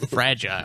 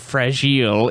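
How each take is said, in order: First: The word is said in a plain, ordinary way. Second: The word is said in a pretentious, fancy way. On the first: The speaker is talking normally. The speaker calls it right. "instead of just saying fragile" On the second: The speaker is showing off. The speaker calls it wrong. "pretentious people who would say fragile"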